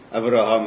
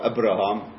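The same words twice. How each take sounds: First: The second consonant is a soft v sound. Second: The second consonant is a hard b sound. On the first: This is the usual way to say the name. "במקום להגיד אברהם" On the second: This is how one community used to say the name. "הם לא ידעו לבטא בעבר בית רפויה"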